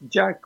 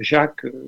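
First: The name is pronounced the American way. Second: The name is pronounced the French way. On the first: "c'est américain" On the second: "Ils le prononcent souvent Jacques comme à la française"

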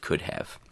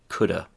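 First: The phrase is said in its full form. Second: The phrase is squeezed into reduced coulda. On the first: "instead of" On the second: "chewing gum pronunciations"

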